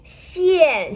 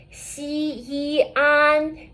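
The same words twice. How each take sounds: First: Teacher's model "xian" with a clear drop; fourth tone. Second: "xi, yi, an" as three held, level syllables; teacher's part-by-part "xi, yi, an"; separated pinyin parts. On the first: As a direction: join the parts into a falling "xian". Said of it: "with the fourth tone". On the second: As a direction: sound out "xi", "yi", "an" one by one. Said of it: "an with the fourth tone". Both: Shown as a demonstration.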